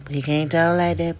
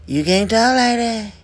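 First: Said in the usual way. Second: Firm repeat. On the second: Shown as a demonstration. Scolding a gossiper, firm emphatic warning. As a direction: scold harder the second time, leaning on "talk".

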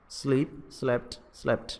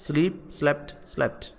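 Both takes have the same delivery.

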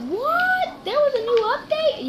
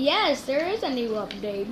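First: High, squeaky "What?" in shock; surprised viewer. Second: Said in the usual way. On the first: Pretend. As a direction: play a stunned viewer. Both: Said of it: "You're probably like".

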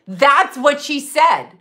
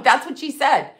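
First: Slow, loud, every word hammered; emphatic repeat. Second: Said in the usual way. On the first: Real, not acted. To listeners, insisting that's what she said, slow and loud. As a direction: drive each word home, slowly.

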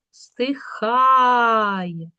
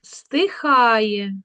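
First: "стихає" with a long drawn-out А; stress on А. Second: Said in the usual way. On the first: Shown as a demonstration. Teacher sounding out a spelling word, stressed А. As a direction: stretch the second syllable of "стихає". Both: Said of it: "Перевірочне слово".

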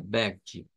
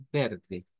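First: "verde" with a guttural r and a ji ending, like VEH-jee; the common Brazilian way. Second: "verde" with a soft tapped r, as in Spanish. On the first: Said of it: "más común es esta". ("verde" con R gutural, "vérdji") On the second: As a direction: riverense accent demo. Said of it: "con una R suave". ("verde" con R suave) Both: Shown as a demonstration.

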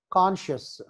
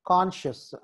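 The two takes are said the same way.

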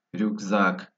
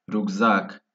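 The two takes are said the same way.

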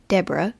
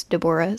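First: Deborah said as DEB-ruh, two syllables; rejected pronunciation. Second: Deborah said as duh-BOR-uh, three syllables; preferred pronunciation. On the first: Narrator on a childhood friend's name, Deborah as DEB-ra. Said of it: "her name was not Deborah". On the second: Narrator on a childhood friend's name, Deborah as de-BOR-ah. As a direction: stress the middle of Deborah: de-BOR-ah. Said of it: "it was Deborah". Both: Shown as a demonstration.

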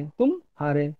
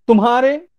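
First: तुम and हारे split, softer; pause inside तुम हारे. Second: तुम्हारे joined, louder and higher; तुम्हारे as one word. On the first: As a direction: say तुम, break, then हारे. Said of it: "तुम हार गए". (तुम और हारे के बीच विराम) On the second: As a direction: punch out तुम्हारे in one piece. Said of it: "ये एक अलग". (तुम्हारे एक साथ, ज़ोर से) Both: Shown as a demonstration.

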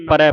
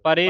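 First: ਪਰੈ with an open "ai" ending; correct dulavan ending. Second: ਪਰੇ with a closed -e ending; wrong vowel ending. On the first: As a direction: open the last vowel of ਪਰੈ to "ai". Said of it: "ਪਰੈ ਪੜਨਾ". (ਪਰੈ ਦੇ ਅੰਤ ਵਿੱਚ ਦੁਲਾਵਾਂ ਦੀ ਖੁੱਲ੍ਹੀ ਆਵਾਜ਼) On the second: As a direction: end ਪਰੇ on "ay", not "ai". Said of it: "ਪਰੇ ਨਹੀਂ ਪੜਨਾ". (ਪਰੇ ਦੇ ਅੰਤ ਵਿੱਚ ਇੱਕ ਲਾਂ ਦੀ ਆਵਾਜ਼) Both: Shown as a demonstration.

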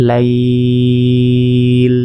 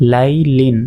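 First: লাইল with a long level glide before the final l; elongated pause form. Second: Said in the usual way. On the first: Shown as a demonstration. Teacher showing the stop, লাইল drawn out long. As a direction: stretch লাই, then close on ল. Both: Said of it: "এখানে ওয়াকফ করলে".

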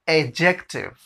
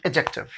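First: adjective slowly, opening on a long "ay"; slow demonstration. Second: adjective quick, in one go; fast demonstration. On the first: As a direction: draw out adjective by its syllables. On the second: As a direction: run the syllables of adjective together. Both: Shown as a demonstration. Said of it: "अब fast में".

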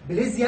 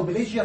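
First: بليزيا with a z in the middle; z pronunciation. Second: بليجيا with a j in the middle; j pronunciation. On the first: Lecturer confirming to students the first variant, بليزيا with a z. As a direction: say "blizia" for بليزيا, using z. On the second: Lecturer confirming to students the second variant, بليجيا with a j. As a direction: say "blijia" for بليجيا, using j. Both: Shown as a demonstration. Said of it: "النطقين صح".

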